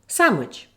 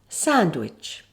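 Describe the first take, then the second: First: The word is said quickly, dropping the d. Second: The word is said slowly and carefully. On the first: "Now speed it up. ... Here you have the omission of D" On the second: "Slowly first"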